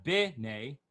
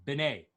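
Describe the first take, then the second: First: B'nai stressed at the front; B'nai, front-stressed as a wrong example; wrong stress on first syllable. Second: B'nai stressed at the end; B'nai, end-stressed as the correct example; stress on last syllable. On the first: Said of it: "not B'nai". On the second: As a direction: pass quickly to the second syllable of B'nai. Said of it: "where you put the emphasis of the word". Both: Shown as a demonstration.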